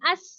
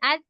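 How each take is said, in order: First: The final consonant is a hissing, whistling s. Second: The final consonant is a soft th. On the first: The speaker calls it wrong. "सीटी की आवाज नहीं आनी चाहिए, यानी अस नहीं करना।" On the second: The speaker calls it right. "जुबान है बेशक उसको थोड़ा सा बाहर निकाल लें"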